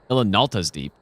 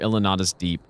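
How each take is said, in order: First: The name is said with an l before t. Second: The name is said without an l before t. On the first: The speaker calls it right. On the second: The speaker calls it wrong.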